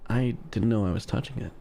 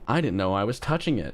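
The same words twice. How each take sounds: First: It is read in a suggestive, sultry, knowing voice. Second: It is read in a plain, neutral narrating voice.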